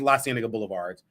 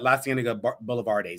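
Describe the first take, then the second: First: The last word ends without an extra syllable. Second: The last word ends with an extra syllable. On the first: This is the correct name. The speaker calls it right. "but it was" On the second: This is how it was said before. The speaker calls it wrong. "That's how I was pronouncing it last week"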